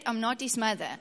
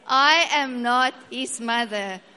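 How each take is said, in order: First: It is said at normal, softer volume. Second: It is said more loudly and forcefully.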